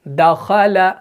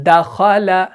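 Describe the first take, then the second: Both takes have the same delivery.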